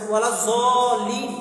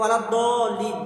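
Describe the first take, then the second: First: The second word begins with a z sound. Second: The second word begins with a d sound. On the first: This follows the Urdu and Persian reading of the letter. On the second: This follows the Arabic reading of the letter.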